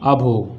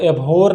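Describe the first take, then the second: First: The word begins with an 'uh' vowel. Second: The word begins with an 'eh' vowel. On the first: The speaker calls it right. "क्या पढ़ते हैं? अभो" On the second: The speaker calls it wrong. "इसको एभोर नहीं पढ़ते हैं"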